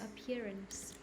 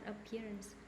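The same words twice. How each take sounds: First: The first vowel is reduced and weak. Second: The first vowel is full and unreduced. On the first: The speaker calls it right. "mình sẽ giảm nhẹ là appearance" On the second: The speaker calls it wrong. "not appearance"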